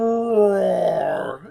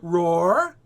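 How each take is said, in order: First: It falls like a loud exclamation. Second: It rises like a question.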